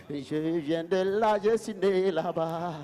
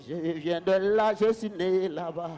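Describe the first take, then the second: No difference in how they are said.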